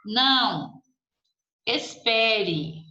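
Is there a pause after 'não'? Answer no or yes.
yes. There is a pause after the first word. A request for someone to wait. "um pedido para que alguém espere"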